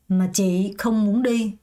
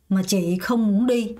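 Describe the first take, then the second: No difference in how they are said.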